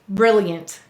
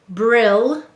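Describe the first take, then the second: First: The word is said naturally with one L sound. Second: The word is split so both L sounds are heard. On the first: "you say brilliant" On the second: "We will say to spell brilliant"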